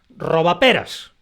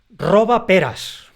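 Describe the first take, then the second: First: The whole word carries a single stress. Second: Both parts carry their own stress. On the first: It names a little rascal. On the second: It orders or exclaims that someone steals pears.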